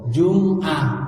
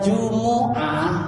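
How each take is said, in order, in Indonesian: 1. Huruf m tidak diikuti vokal. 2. Huruf m diikuti vokal u. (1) "mimnya sukun" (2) "mimnya juga harokatnya doma"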